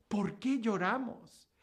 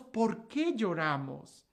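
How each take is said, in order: First: Said in the usual way. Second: Slow, weighed question; slower repeat. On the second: Shown as a demonstration. Preacher repeats the question to the crowd, slow. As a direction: let it sink in slowly.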